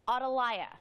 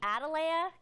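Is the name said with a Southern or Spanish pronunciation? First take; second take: Spanish; Southern. First: The name is said with a Spanish pronunciation. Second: The name is said with a Southern American pronunciation. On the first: The speaker calls it right. "I just learned it's Atalaya" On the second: The speaker calls it wrong. "which I've been saying all morning"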